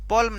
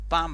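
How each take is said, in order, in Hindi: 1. इस शब्द में L उच्चारित होता है। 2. इस शब्द में L मौन है। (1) "पॉल्म न होकर" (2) "पाम बनेगा"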